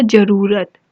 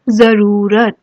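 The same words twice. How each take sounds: First: जरूरत said with a plain j, as jaroorat; जरूरत with a hard j, no nukta; wrong plain j sound. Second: जरूरत said with a z, as zaroorat; जरूरत with a buzzing z at the start; correct nukta z sound. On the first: Teacher reads the student's wrong form: जरूरत with plain j. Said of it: "तो इसने लिखा है जरूरत". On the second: Teacher reads the right form: जरूरत with z. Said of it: "ज के नीचे आएगा नुक्ता". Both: Shown as a demonstration.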